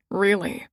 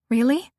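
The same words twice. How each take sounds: First: Said in the usual way. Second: A quick rising "Really?"; surprised question. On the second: Acted. Surprised question answered by echo.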